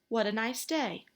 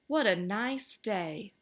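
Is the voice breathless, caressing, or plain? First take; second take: plain; caressing. First: It is said in a plain, ordinary voice. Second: It is said in a soft, caressing voice.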